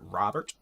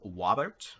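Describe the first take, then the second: First: The word begins with an R sound. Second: The word begins with a W sound.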